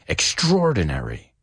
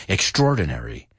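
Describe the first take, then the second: No difference in how they are said.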